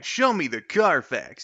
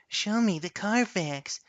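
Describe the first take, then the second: First: It is said in a cool-sounding voice. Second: It is said in a creepy-sounding voice.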